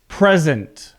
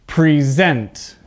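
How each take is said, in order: First: "Present" stressed on the first syllable, PREZ-ent; noun stress PRESent. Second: "Present" stressed on the second syllable, pri-ZENT; verb stress preSENT. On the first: Teacher shows the class the noun form, stress first syllable. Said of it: "the word sounds different". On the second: Teacher contrasts verb pronunciation for students, stress second syllable. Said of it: "listen to the difference in pronunciation as a verb". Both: Shown as a demonstration.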